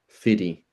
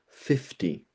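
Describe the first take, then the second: First: The middle consonant is a voiced D sound. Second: The middle consonant is a voiceless T sound. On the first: "Why do Americans say fiddy" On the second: "fifty would make sense because the F is unvoiced and the T is also unvoiced"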